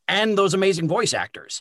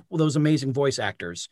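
First: "and those amazing voice actors" higher-pitched, leaning on "and those"; emphatic repeat. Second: Said in the usual way. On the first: Real, not acted.

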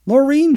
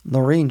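First: Calling out. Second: Firm. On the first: Virginia calls the girl by name. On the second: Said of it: "she said firmly". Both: A narrator's reading.

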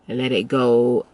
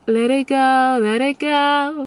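First: Said in the usual way. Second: Much higher, drawn-out let it go; high airy release. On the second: Shown as a demonstration. Coach showing how to let go, rising high. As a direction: float the words up and away. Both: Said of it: "Knowing how to let it go".

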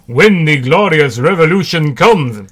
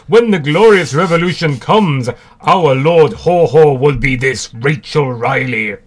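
First: Mock Russian accent, louder; hammed-up Russian revolutionary. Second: Louder mock Russian accent, slowing at the end; jokey Russian comrade proclaiming. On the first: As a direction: declaim it in a jokey Russian accent. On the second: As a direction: ham up a Russian accent, dragging the last part. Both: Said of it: "that's my Russian accent".

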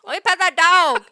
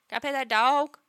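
First: Loud, high, imitated child's yell; little girl demanding. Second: Lightly voiced child's plea; little girl asking. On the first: Imitating a little girl who sees a bear, loudly demanding. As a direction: yell it like an insistent small child. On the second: Imitating a little girl who sees a bear, asking hopefully. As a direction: ask like a small child, rising at the end. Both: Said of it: "a girl who's, like, four or five".

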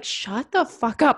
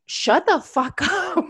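First: Drawn out, deliberate shut-up to her inner voice; mock stern command to the negative voice; slow firm telling-off. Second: Higher, slow, breaking into a laugh midway; giggling mock command to the inner voice; laughing telling-off. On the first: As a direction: spell out each word like shutting down a nag. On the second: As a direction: try to be stern but crack up. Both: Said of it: "sometimes I'm just like".

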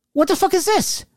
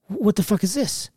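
First: High-pitched incredulous demand; retold indignant demand. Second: Slightly raised, stunned question; puzzled disbelief, voice held back; retold bewilderment. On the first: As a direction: demand an explanation in a much higher voice. Retold angry call to cousin. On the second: Reacts to discovering unknown wife.

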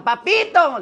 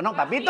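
First: Mock fan squeal, higher-pitched; gritito de fans imitado. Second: Said in the usual way. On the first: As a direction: imitate women calling out admiringly. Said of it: "me gritan". (imitando el grito de admiradoras) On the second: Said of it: "Les digo".

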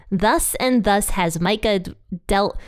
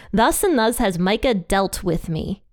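First: Trips on Micah d- and restarts on dealt; stumbling over a tongue twister. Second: Said in the usual way. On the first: Shown as a demonstration. Reading scripture aloud and tripping over the tongue twister. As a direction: stumble on the d of dealt and start it again. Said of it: "the biggest tongue twister for me". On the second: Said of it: "it's still a hard one for me".

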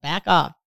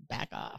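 First: Said in the usual way. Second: Breathy whisper, voice dropped. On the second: Shown as a demonstration. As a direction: whisper it under your breath.

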